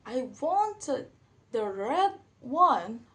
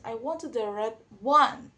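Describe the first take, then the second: First: "red" punched loud and slow; stress on red. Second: "I wanted the red one." lifted on "one"; rising end. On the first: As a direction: lean hard on the word "red". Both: Shown as a demonstration. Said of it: "For the example".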